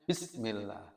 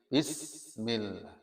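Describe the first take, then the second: First: The s sound is cut short without flow. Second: The s sound flows out with breath. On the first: The speaker calls it wrong. "Kalau tidak dialirkan ya hanya" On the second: The speaker calls it right. "kalau dialirkan menjadi"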